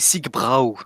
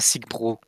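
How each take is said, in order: First: The last syllable ends with an 'ow' vowel. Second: The last syllable ends with an 'oh' vowel. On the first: The speaker calls it right. "ça se dit Sigbrau" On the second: The speaker calls it wrong. "non pas Sigbro"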